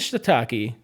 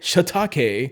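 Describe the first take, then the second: First: The word is said with an English pronunciation. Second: The word is said with a Japanese pronunciation. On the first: "we'll stick to Shiitake" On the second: "get a really nice Japanese pronunciation"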